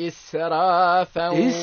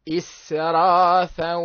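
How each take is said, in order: The two takes are said the same way.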